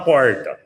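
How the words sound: It is said in a Rio de Janeiro accent. "O carioca fala porta"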